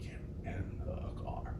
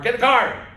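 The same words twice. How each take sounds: First: The phrase is whispered quietly. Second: The phrase is shouted loudly. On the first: The listeners are about to be punished. "But when he whispered it" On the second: The listeners are not in trouble. "when he would yell at us to get in the car"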